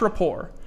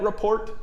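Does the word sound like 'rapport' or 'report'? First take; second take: rapport; report. First: It is said as rapport, with no final t. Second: It is said as report, like school report. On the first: The speaker calls it right. "what's rapport?" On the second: The speaker calls it wrong. "anybody ever pronounce it like that? Report?"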